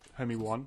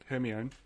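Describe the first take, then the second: First: The name is said like 'Hermie One'. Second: The name is said the usual way. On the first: The speaker calls it wrong. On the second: The speaker calls it right.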